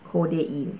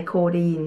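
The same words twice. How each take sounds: First: โคเดอีน spelled out in three syllables, โค-เด-อีน; ออกเสียง โคเดอีน ครบสามพยางค์; careful pronunciation. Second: โคดีน said the Thai way, two syllables, โค-ดีน; คำว่า โคดีน ออกเสียงแบบไทย; Thai-style pronunciation. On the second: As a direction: read โคดีน as a Thai speaker would, โค-ดีน. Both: Shown as a demonstration. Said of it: "สำเนียงไทย".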